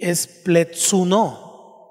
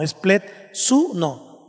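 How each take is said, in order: First: "pletsuno" said slowly, stress not yet set on the u; slow first attempt at "pletsuno" before the correction; first try at the word. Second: "pletsuno" said slowly as plets-U-no with the stress on the u; deliberate corrected pronunciation, "pletsuno" with stress on u. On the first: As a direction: carefully sound out "pletsuno" as the take about to be fixed. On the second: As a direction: slowly put the accent on the u in "pletsuno". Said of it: "Lleva el acento en la U". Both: Shown as a demonstration.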